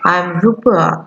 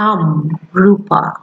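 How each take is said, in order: First: The words 'I am' are said in full. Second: The words 'I am' are contracted into one syllable. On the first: "নাম বলতে গেলে কিভাবে বলতে হবে" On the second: "যখন I অ্যাপোস্ট্রোফি am হয় তখন আমরা বলতে"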